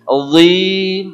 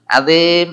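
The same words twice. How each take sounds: First: The word is pronounced thick and heavy. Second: The word is pronounced thin and light. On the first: The speaker calls it right. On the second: The speaker calls it wrong.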